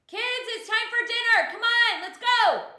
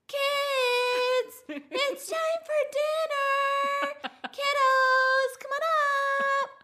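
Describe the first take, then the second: First: The call is shouted loudly. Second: The call is said very quietly.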